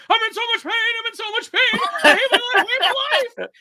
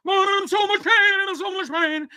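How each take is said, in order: First: Much higher, hammed-up wailing meltdown; Boogie freaking out. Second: High, sustained mock-robotic wail; Boogie through vocoder. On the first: Co-host imitating a streamer's live meltdown, high mock wail. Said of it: "freaking out on Lolcow Live". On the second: Co-host imitating an edited meltdown clip, high vocoder wail. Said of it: "they put a vocoder on Boogie's".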